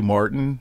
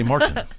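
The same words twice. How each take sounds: First: The T sound in the middle is dropped. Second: The T sound in the middle is clearly pronounced. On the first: "They they don't pronounce their T's" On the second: "I say Martin"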